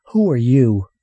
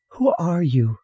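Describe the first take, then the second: First: Put-on raised, loud boy's challenge; demanding. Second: Put-on high child's question; demanding little girl. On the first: Boy confronting a shadowy stranger, demanding. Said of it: "Earl demanded, his voice low". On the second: Girl questioning a silent stranger, demanding child voice. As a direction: pipe up and demand an answer. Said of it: "Sally demanded at last". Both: A narrator's reading.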